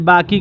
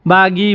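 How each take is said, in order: First: The word is said short, without stretching. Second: The word is said with a stretched first syllable. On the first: This is how Hindi speakers say it. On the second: This is how Arabic speakers say it.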